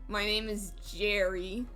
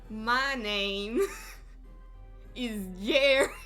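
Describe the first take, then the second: First: It is said in the speaker's normal accent. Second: It is said in a put-on Southern accent.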